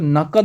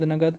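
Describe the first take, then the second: First: The middle consonant is a 'k' sound. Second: The middle consonant is a 'g' sound. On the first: The speaker calls it right. "आज से आप word सही बोलना start करो।" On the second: The speaker calls it wrong. "खुद सुना करता था आस पड़ोस से"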